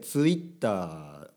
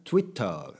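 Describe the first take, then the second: First: The word is pronounced the Japanese way. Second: The word is pronounced the English way. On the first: The speaker calls it right. "日本語っぽく言った方がいい" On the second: The speaker calls it wrong. "そういうことじゃなくて"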